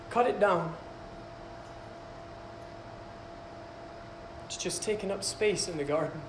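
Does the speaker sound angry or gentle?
gentle. The line is said in a gentle tone. The master does not want the tree to die. The speaker calls it right. "how about you read it like this?"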